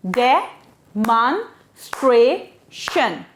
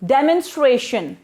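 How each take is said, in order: First: Demonstration in four slow beats with pauses; syllable by syllable. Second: Said in the usual way. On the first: Shown as a demonstration. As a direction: say Demonstration slowly, one syllable at a time. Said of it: "Four syllable words". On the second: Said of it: "we break the word there".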